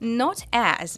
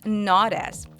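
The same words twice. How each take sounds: First: The T is clear and the words are separate. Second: The T sounds like a soft D, linked.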